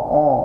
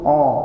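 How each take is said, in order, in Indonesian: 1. Vokal "a" diucapkan dengan bibir membulat, didorong ke depan. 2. Vokal "a" diucapkan dengan bibir membulat, didorong ke depan.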